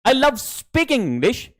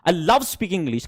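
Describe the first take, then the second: First: The third word carries the stress. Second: The second word carries the stress. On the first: The speaker likes speaking, maybe not reading or writing. "कि मुझे सिर्फ English बोलना पसंद है" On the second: The speaker likes speaking English very much. "फिर दूसरा stress लव पे डाला है"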